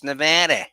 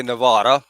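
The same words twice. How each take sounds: First: Nevada with the "a" of "cat", ne-VAD-a; western pronunciation. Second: Nevada with a broad "ah", ne-VAH-da; New York pronunciation. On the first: Guest showing how it's said out here, short-a pronunciation. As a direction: say Nevada the local way, short flat "a". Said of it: "And out here, once you cross the Mississippi". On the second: Guest showing how New Yorkers say it, broad-ah pronunciation. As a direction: say Nevada the East Coast way, ne-VAH-da. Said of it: "we're from New York, you say Nevada". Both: Shown as a demonstration.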